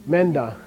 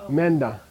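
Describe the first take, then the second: Both takes have the same delivery.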